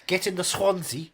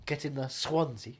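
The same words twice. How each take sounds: First: Said in the usual way. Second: Swansea drawn out with a "skw" onset; meme pronunciation. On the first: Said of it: "as the internet meme would". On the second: Shown as a demonstration. Actor quoting an internet meme, Swansea slowed and distorted. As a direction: say Swansea slowly, like "Squonzy". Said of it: "as the internet meme would pronounce it".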